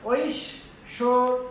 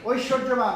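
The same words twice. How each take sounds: First: ঐশ্বর্যবান drawn out very slowly. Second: Said in the usual way. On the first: Shown as a demonstration. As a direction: teach ঐশ্বর্যবান syllable by syllable. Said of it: "তাহলে কি হবে?". (ধীরে টেনে ঐশ্বর্যবান) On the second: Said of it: "আরেকটা শব্দ আছে দেখবা".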